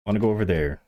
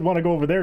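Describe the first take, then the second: First: Said in the usual way. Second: Mild mock of a teammate, "there" rising up; imitating teammate. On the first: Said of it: "You said, "Wanna go over there". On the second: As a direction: lightly parrot the friend's offhand "there" with a rise. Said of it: "You said".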